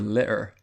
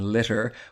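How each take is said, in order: First: The middle t is a glottal stop. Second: The middle t is a clear t.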